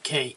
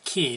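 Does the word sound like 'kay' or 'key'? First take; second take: kay; key. First: The word rhymes with 'say'. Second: The word rhymes with 'see'. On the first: The speaker calls it wrong. "not K" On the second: The speaker calls it right. "I've learned to pronounce it Key"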